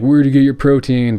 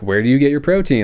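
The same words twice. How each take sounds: First: It sounds insincere and dismissive. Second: It sounds sincere and genuinely curious.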